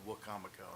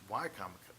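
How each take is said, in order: First: The first syllable sounds like 'wah'. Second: The first syllable sounds like 'why'. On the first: The speaker calls it wrong. "gets it wrong by saying Wacomico" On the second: The speaker calls it right. "no, it's Wycomico"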